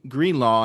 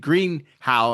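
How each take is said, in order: First: The name ends with a 'law' sound. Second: The name ends with a 'how' sound. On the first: The speaker calls it wrong. "I believe that's the way you say it" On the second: The speaker calls it right. "I'm sorry, that's the way you say his name"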